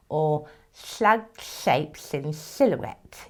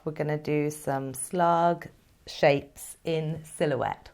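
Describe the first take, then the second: First: Slow, slushy slug voice with sh sounds; slow slurpy slug. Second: Said in the usual way. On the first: Pretend. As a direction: slur it out like a slug. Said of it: "if you want to say it like a slug".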